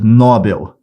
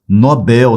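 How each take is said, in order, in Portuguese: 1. A tônica está na primeira sílaba. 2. A tônica está na última sílaba. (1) "A maioria fala prêmio Nobel. Essa palavra não é paroxítona" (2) "Essa palavra é oxítona"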